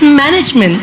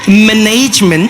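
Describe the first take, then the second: First: It is said with a standard, unaccented pronunciation. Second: It is said with a marked foreign-accented pronunciation. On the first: This is the form the corrector insists on. The speaker calls it right. "it's management" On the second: This is how the person being corrected said it. The speaker calls it wrong. "It's not management"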